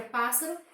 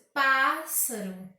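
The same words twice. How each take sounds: First: Said in the usual way. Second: PÁS de "pássaro" forte e alongado; ênfase em PÁS. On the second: Shown as a demonstration. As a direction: bata forte na primeira sílaba de "pássaro". (PÁÁS-saro, tônica exagerada) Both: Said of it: "O pá eu pronuncio com mais força".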